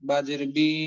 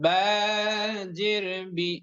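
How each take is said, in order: First: The final vowel is drawn out long. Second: The final vowel is short and quick. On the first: The speaker calls it wrong. "উচ্চারণ যাতে এমন না হয় যে" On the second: The speaker calls it right. "উচ্চারণগুলো দ্রুত এবং তাড়াতাড়ি কিভাবে হবে?"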